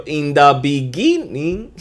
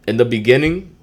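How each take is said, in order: First: Put-on slow, higher echo of an old video intro; mock intro. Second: Said in the usual way. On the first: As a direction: callback to an old intro line. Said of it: "y'all seen that video?".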